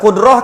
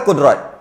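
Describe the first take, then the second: First: The word ends with an h sound. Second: The word ends with a t sound. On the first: "bila ta marbutah ni bila mati, dia akan bunyi ha" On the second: "kejap bunyi ta"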